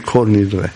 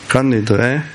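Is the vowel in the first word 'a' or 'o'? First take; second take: o; a. First: The first word is said with an 'o' vowel. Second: The first word is said with an 'a' vowel. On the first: The speaker calls it wrong. "לא אומרים כל נדרה, זה שיבוש" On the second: This is the Aramaic form of the word. The speaker calls it right. "קל בארמית"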